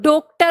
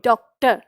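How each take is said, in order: First: The first vowel is a closed o. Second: The first vowel is an open o. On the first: The speaker calls it wrong. "ओ की मात्रा लगा के देखी, तो इसका उच्चारण क्या हो गया?" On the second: The speaker calls it right. "ऐसे ही उच्चारित करना है जैसे अंग्रेजी भाषा में होता है"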